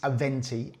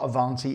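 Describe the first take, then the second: First: The second vowel sounds like 'eh'. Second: The second vowel sounds like 'ah'. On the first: The speaker calls it right. "it's Aventi, A V E N T I" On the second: The speaker calls it wrong. "but it's not Avanti"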